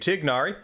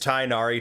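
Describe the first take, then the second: First: The name is said with non-English vowels. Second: The name is said with English-style vowels. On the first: "to Tignari" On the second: "de-anglicize Tainari"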